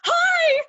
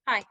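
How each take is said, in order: First: It is said excitedly, with enthusiasm. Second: It is said reluctantly, without enthusiasm.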